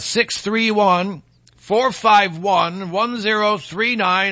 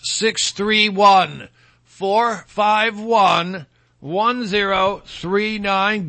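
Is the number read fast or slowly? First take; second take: fast; slowly. First: The number is read at a normal, quicker pace. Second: The number is read more slowly.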